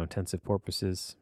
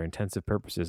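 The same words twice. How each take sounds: First: "porpoises" said as POR-puh-siz, the dolphin word; intensive porpoises pun. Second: "intensive purposes" said plainly, purposes as PUR-puh-siz; "purposes" with a clear PUR vowel, no pun yet. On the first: Retold or imitated. Imagining a band name, the punning "porpoises". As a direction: land on "porpoises" with a round POR. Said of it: "I'm like, "Porpoises". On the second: Shown as a demonstration. Musing to himself before the porpoise pun, plain "purposes". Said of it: "I'm like".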